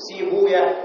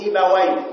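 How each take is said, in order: First: The middle is said with a long oo sound. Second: The middle is said as ba-wa with open vowels. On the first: This is how the hadith scholars say it. "لغة المحدثين يقولون سيبويا" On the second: This is how the grammarians say it. "فيفتحون الواو، يقولون سيبوي"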